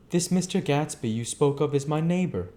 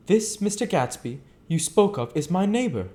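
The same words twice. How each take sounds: First: Somewhat higher gentleman's line; Nick speaking. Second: Higher, careful gentleman's line; Nick speaking. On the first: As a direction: say it plainly and politely. Nick's line, retake. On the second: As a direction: state it with polite interest. Nick's line, first take. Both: Acted.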